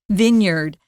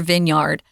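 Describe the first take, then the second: First: The second syllable is reduced, not 'yard'. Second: The second syllable sounds like a full 'yard'. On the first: The speaker calls it right. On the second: The speaker calls it wrong.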